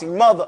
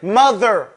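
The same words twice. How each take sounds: First: The middle consonant is a v sound. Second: The middle consonant is a soft th sound. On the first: The speaker calls it wrong. "not like we say it in the Bronx, ... We say mother with a V" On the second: The speaker calls it right. "say there. Mother"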